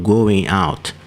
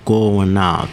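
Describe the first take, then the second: First: Going is pronounced in its full, careful form. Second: Going is pronounced in a reduced, casual form. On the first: "não está falando going out" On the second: "ele está falando going out"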